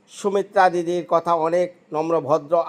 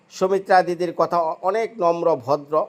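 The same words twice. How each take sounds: The two takes are said the same way.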